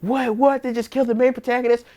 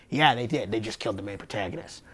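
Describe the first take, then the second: First: High, fast incredulous what; shocked disbelief. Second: Low, quiet They just killed the main protagonist with no surprise; deadpan. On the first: Retold or imitated. Viewer reacting to the main protagonist being killed, shocked. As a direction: pitch it up in stunned disbelief. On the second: Real, not acted. Answering her own shocked question, quiet deadpan. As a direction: flatly confirm it, dropped low and soft.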